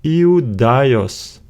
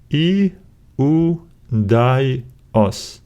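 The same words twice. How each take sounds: First: "Iudaios" joined up, stress on DAI; stressed syllable. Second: "I, U, di, os" split by clear pauses; syllable by syllable. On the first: Teacher putting the Greek word together, stressed on the accented syllable. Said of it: "we need to stress this syllable". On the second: Teacher breaking a Greek word down, syllable by syllable. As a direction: say "I, U, di, os" one syllable at a time. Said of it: "Now let's break it down". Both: Shown as a demonstration.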